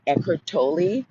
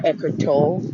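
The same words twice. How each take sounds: First: Tolle ending in an "ee" sound; Tolle as TOH-lee. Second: Tolle with a silent final e; Tolle as TOLE. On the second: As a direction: say Tolle as one syllable, rhyming with "goal". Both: Shown as a demonstration. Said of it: "They pronounce it either way".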